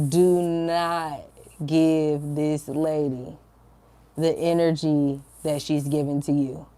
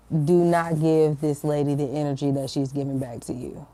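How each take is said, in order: First: Slow, deliberate repeat with pauses between phrases; firm inner voice. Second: Firm inner voice. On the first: Spirit telling her to hold back, slow and firm. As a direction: spell out the instruction slowly, evenly. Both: Retold or imitated. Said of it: "I felt so strongly in my spirit".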